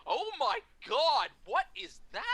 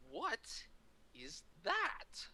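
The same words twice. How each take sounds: First: Retold scandalized outcry, pitched way up; mock shock. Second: Slow, halting question, rising at the end; drawn-out retold double take; mock disbelief. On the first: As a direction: draw out a hammed-up aghast reaction. Colleague's shocked reaction retold. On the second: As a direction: pause between words, softly incredulous, pitched up. Actor stops signing, questions picture.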